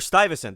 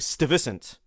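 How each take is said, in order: First: The name is said with American English sounds. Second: The name is said with Dutch-like sounds. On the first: "New Yorkers will say Peter Stuyvesant" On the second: "probably in perfect seventeenth century Dutch, as something close to"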